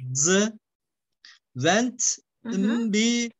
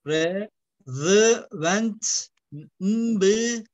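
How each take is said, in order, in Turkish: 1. İlk kelime net bir z sesiyle başlıyor. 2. İlk kelime peltek bir th sesiyle başlıyor.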